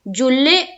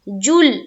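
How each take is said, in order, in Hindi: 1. अंतिम 'l' के बाद एक अतिरिक्त स्वर के साथ ध्वनि छोड़ी जाती है। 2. अंतिम 'l' बिना किसी अतिरिक्त स्वर के रुक जाता है। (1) "जुल्ले तो गलत है" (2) "जुल में भी आवाज रुक जाएगी"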